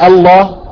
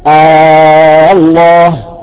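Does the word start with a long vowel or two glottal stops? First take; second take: two stops; long vowel. First: Two separate glottal stops begin the word. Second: A very long vowel begins the word. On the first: The speaker calls it wrong. "ولا يجوز النطق بالهمزتين، نقول الله، ما بيصير" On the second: The speaker calls it right. "إبدال الهمزة الهمزة الوصل بألف مدية ست حركات"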